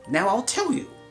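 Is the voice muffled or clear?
clear. It is said in a clear, plain voice. "If you didn't understand me, I'll read it again"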